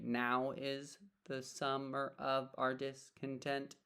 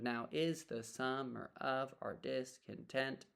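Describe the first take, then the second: First: The first word, now, carries the stress. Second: The second word, is, carries the stress.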